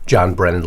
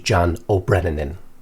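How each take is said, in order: First: The surname is said plainly as Brennan. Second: The surname gets an added 'O' before Brennan. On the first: The speaker calls it right. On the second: The speaker calls it wrong.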